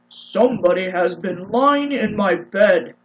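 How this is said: It is said in a deep, rough voice.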